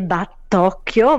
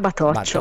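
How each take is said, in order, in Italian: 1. Ha una doppia t e suono di 'k' dura. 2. Ha una t singola e suono di 'ch'. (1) "si scrive come il mio nome" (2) "ma si pronuncia Batoccio"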